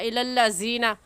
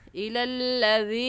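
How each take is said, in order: First: The middle consonant is a z sound. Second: The middle consonant is a soft dh sound. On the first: The speaker calls it wrong. "ज़ाल की जगह ज़ा पढ़ना, इलल्लज़ीना गलत है" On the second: The speaker calls it right. "ऐसे कहेंगे"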